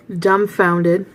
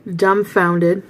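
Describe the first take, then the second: No difference in how they are said.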